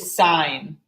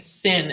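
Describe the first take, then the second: First: The vowel is long, like in fine. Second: The vowel is short, like in fin. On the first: The speaker calls it right. "It's actually sine" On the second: The speaker calls it wrong. "They'll start saying sin"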